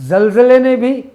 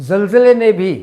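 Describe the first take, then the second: The two takes are said the same way.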